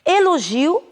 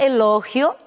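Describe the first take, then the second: First: The stress falls where Portuguese places it. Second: The stress falls where Spanish places it.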